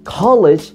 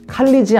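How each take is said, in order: First: The first syllable is pushed strongly. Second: The syllables are said evenly, Korean style. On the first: The speaker calls it right. "가에 해주세요" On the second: The speaker calls it wrong. "칼리지 아닙니다"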